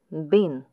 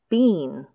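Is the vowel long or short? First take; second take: short; long. First: The word has a short, reduced vowel. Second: The word has a long, full vowel. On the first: "strong and weak forms" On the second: "strong and weak forms"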